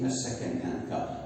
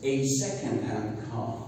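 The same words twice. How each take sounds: First: The article is a weak 'uh' sound. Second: The article is a full 'ay' sound. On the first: The speaker calls it wrong. "I don't say" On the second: The speaker calls it right. "I pronounce it as a"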